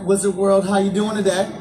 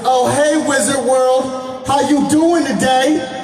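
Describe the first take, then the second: First: The greeting is said at normal volume. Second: The greeting is said loudly and energetically.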